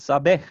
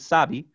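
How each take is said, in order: First: The stress is on the second syllable. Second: The stress is on the first syllable. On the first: It is the infinitive form with the final R dropped. "to second syllable in sabe" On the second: It is the third person singular present form. "from first syllable in sabe"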